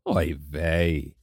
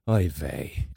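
First: It sounds warm and delighted. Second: It sounds tired and sleepy.

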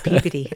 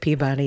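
First: The word sounds much like puberty. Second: The word does not sound like puberty. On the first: This is the local way to say it. "It sounds like puberty" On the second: This is the way the award name is said. "It sounds more like the award we all want"

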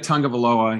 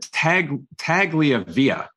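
First: The name is said as Tagovailoa. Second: The name is said as Tagliavia. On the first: This is how the player's name really sounds. The speaker calls it right. "His name is Talia Tagovailoa" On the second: This imitates another person's mispronunciation. The speaker calls it wrong. "He said Tagliavia"

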